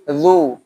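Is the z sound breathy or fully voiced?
voiced. The z is fully voiced with no breath. The speaker calls it right. "zu itu mengalir suara, bukan nafas"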